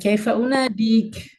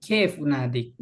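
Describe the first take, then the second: First: The first word ends with a short vowel. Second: The first word ends without a vowel.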